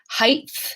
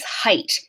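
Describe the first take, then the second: First: The word ends in a th sound. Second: The word ends in a plain t sound.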